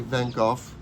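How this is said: The name is pronounced the British way. "in London they say Van Gogh"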